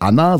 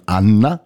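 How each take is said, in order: First: Said in the usual way. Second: "Anna" with the double n held long; lengthened double N. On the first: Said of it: "nicht Anna, sondern Anna". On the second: Shown as a demonstration. Host showing a Polish acquaintance's name, "Anna" with long n. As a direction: linger on the n's in "Anna" before the final a. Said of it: "ein bisschen länger drauf hängen bleiben".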